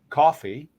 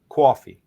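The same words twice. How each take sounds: First: It has a more open Australian vowel. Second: It has a New York vowel. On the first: "Australian talk, awful, but then coffee, it opens up more" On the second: "New York talk, awful, coffee"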